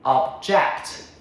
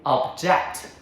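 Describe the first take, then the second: First: The stress is on the second syllable. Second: The stress is on the second syllable.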